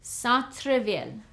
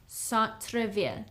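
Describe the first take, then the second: First: Said in the usual way. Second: Centre-ville repeated softer; Centre-ville, gently echoed; quiet teaching echo. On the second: Shown as a demonstration. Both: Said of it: "How would you say downtown?".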